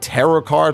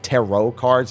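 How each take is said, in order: First: The word ends with a clear 'ut' sound. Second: The word ends with an 'oh' sound. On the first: This is the spelling used in this game. "because it's T A R U T here" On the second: This is the usual spelling. "instead of with the O T"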